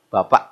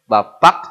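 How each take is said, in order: First: The final k is dropped. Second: The final k is clearly pronounced. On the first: "Hari-hari kak dibuang" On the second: "atnya jelas ya"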